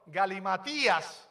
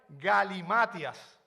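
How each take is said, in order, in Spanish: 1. El acento cae en la sílaba 'ti'. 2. El acento cae antes de la sílaba 'ti'. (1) "porque tiene un acento en la I al final" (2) "perdón, está mal pronunciado"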